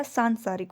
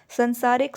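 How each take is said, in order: First: सांसारिक with a long सां; correct form. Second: संसारिक with a short स; wrong form. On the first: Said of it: "स में भी आ की मात्रा". (सांसारिक सही रूप, लंबा आ) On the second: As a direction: say संसारिक, with a short first vowel. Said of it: "संसारिक नहीं होता". (संसारिक गलत रूप) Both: Shown as a demonstration.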